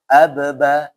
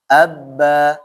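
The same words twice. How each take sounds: First: The first b is released with a bounce. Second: The doubled b is held without a bounce. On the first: The speaker calls it wrong. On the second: The speaker calls it right.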